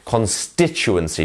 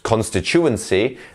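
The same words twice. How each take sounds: First: The stress is on the second syllable, sti. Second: The stress is on another syllable, not sti. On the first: The speaker calls it right. "here we have our stress syllable, which is our sti" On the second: The speaker calls it wrong. "not constituency and things like this"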